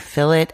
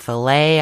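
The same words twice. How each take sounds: First: It is said in the speaker's own non-American way. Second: It is said the way Americans say it. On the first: "I say fillet" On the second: "Americans say fillet"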